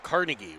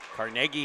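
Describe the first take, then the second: First: It is said the New York way. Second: It is said the Pittsburgh way. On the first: "Carnegie would be in New York" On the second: "Carnegie here in Pittsburgh"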